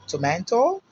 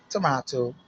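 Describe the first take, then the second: First: American "Tomato" with an AY vowel; "Tomato," the American way, lifted at the end; American pronunciation. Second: British "tomato" with an AH vowel; "tomato," the British way, broad middle vowel; British pronunciation. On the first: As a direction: say "Tomato," as "to-MAY-to", higher and rising. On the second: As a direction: say "tomato," as "to-MAH-to". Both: Shown as a demonstration.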